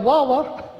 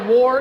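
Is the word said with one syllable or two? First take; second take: two; one. First: The word is stretched into two syllables. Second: The word is said as one syllable. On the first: The speaker calls it wrong. "that extra W you decided to stick in" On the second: The speaker calls it right. "war is a one-syllable word"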